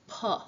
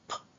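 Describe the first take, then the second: First: The consonant is followed by a weak 'uh' vowel. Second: The bare consonant sound with no vowel after. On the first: The speaker calls it wrong. "to not add schwa to a phoneme" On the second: The speaker calls it right. "Say p instead of"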